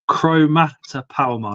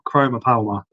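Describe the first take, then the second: First: The first part has three syllables, chro-ma-ta. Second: The first part has two syllables, chro-ma. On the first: The speaker calls it right. "So it's a chromata palma" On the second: The speaker calls it wrong. "not chroma palma"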